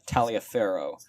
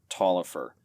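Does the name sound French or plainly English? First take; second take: French; English. First: The name is said in a French-sounding way. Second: The name is said in a plain English way. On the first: This is how the spelling reads. The speaker calls it wrong. "it's read as L- Lawrence uh, Taliaferro, um, which is also very cool and very French sounding" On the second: This is how the name is really said. The speaker calls it right. "but it is actually Tolliver"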